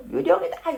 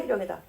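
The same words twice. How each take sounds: First: High rising frightened cry of ghost. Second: Fading fearful repeat. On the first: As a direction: shout it up high in fear, like spotting a ghost. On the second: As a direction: let the second 유령이다 sink softly. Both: Acted. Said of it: "무서워서 막 소리 질러요".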